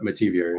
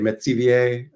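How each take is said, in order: First: The name is said with English pronunciation. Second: The name is said with French pronunciation. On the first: This is how the family usually says it. "Metivier is generally how we go about it" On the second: This is how an older relative says it. "my grandmother would say Metivier, um, the correct French pronunciation"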